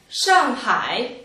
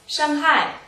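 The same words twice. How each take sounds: First: Said with the tones of the city name. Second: Said with the tones of the word for hurt. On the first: The word names the city. The speaker calls it right. "Und Shanghai ist der Name unserer Partnerstadt" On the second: The word means to injure. The speaker calls it wrong. "Shanghai bedeutet verletzen"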